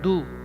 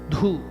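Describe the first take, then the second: First: The d is released without a puff of air. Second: The d is released with a strong puff of air. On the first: The speaker calls it wrong. "It is not du, ... Alpa prana is du, less force of the lungs" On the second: The speaker calls it right. "You are bringing out the lungs, air with more force"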